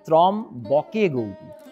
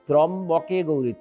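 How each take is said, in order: First: The first word is broken by a pause inside. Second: The first word is said smoothly as one unit. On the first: The speaker calls it wrong. "তারা কিন্তু ত্রম বকে Gauri" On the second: The speaker calls it right. "ত্রম্বকে শব্দটা একসঙ্গেই উচ্চারণ করতে হবে।"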